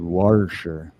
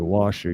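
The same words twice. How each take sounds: First: The first syllable has an added R sound. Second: The first syllable has no R sound. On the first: This reveals the speaker is from Ohio. "you said washer. There's no R in washer" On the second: This is the usual way to say it. "You didn't say washer"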